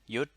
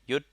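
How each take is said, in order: First: The syllable is said with a high tone. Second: The same.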